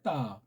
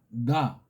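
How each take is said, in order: First: The first consonant sounds hard and tense. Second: The first consonant sounds soft, resonant and open. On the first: The speaker calls it wrong. "근데 그걸 따라고 하잖아요. 따. 거짓이에요" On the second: The speaker calls it right. "약간 좀 울림 소리 같이 열린 듯한 것은 나"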